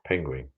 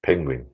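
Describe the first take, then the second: First: Penguin said as pengrin, with an r sneaking in after the g, low and soft; her own way. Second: Penguin said peng-gwin, with a clear w after the g; trying the proper way. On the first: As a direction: Penguin as peng-grin. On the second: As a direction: Penguin with the w sound, low and careful. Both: Shown as a demonstration. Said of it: "How do you say penguin?".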